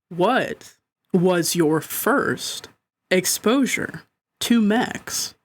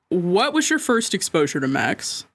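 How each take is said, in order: First: The question is read slowly, like a radio host. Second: The question is read at a normal pace.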